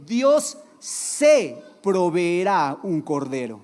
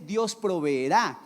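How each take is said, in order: First: Slow and emphatic, "Dios se proveerá un cordero" with weight on "se"; correct reading. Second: Slow, stress on "Dios proveerá" without se; "Dios proveerá" said slowly as the common misreading; wrong reading. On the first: Pastor corrects the verse for the church, slow and emphatic. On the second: Pastor quotes the misreading to the church, slow. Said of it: "pero no dice eso". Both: Shown as a demonstration.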